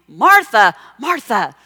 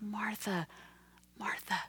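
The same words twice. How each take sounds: First: It sounds scolding and accusing. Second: It sounds sad, kind and gentle.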